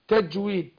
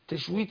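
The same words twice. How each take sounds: First: The j sound is a crisp stop. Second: The j sound hisses like sh. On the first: The speaker calls it right. "اقول بالتجويد تج تج تج تج تجويد" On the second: The speaker calls it wrong. "تجويد كده دخل على الشين برضه"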